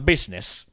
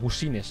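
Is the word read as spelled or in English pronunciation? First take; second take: English; as spelled. First: The word has its usual English pronunciation. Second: The word is read out as it is spelled. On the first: The speaker calls it right. "se dice business" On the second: The speaker calls it wrong. "sé que no se dice busines"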